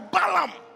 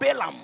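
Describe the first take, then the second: First: The first syllable sounds like 'ba'. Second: The first syllable sounds like 'be'. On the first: "Ba or Be" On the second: "Ba or Be"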